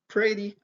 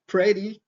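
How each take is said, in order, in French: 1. Il est prononcé avec un accent américain. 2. Il est prononcé avec un accent américain.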